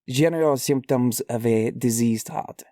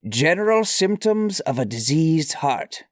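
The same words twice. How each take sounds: First: It is said with a put-on French accent. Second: It is said in the speaker's ordinary accent.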